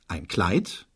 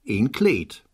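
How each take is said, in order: First: The vowels are the diphthong ei. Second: The vowels are a long e sound.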